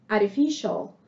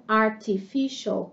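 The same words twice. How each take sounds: First: Artificial with the t tapped like a quick r; American flap t. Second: Artificial with a clear t, slowly; British t. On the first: Teacher shows students the American artificial. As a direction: tap the t in artificial, American style. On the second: Teacher shows students the British artificial. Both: Shown as a demonstration. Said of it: "como um T mesmo no britânico".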